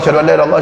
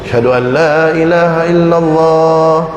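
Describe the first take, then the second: First: The phrase is rushed out quickly. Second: The phrase is said slowly and calmly. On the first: Listeners cannot keep up to answer. The speaker calls it wrong. "Makanya kalau qomat jangan cepat-cepat" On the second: Listeners can answer each phrase. The speaker calls it right. "Slow, jangan ngegas"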